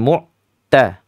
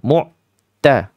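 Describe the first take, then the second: Both takes have the same delivery.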